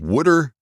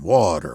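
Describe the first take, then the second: First: The word is said with a regional pronunciation. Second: The word is said with a standard, non-regional pronunciation. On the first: The speaker calls it wrong. "the pronunciation of wooder would just come out" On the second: The speaker calls it right. "I practiced saying water the way he said it"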